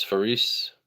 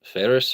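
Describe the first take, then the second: First: "Faris" with a long EE, fuh-REESE; alternative pronunciation. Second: "Faris" stressed up front, FAIR-us; trying a pronunciation. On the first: Streamer careful not to butcher a name, "Faris" tried as fuh-REESE. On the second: Streamer trying a viewer's name, tentative first-syllable stress on "Faris". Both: Shown as a demonstration. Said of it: "I don't wanna butcher it".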